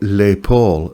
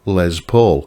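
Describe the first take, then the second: First: The name is said with a French pronunciation. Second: The name is said with an English pronunciation. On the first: The speaker calls it wrong. "as if it was like, you know, a French pronunciation" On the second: The speaker calls it right. "no, it's called a Les Paul after the guitar player"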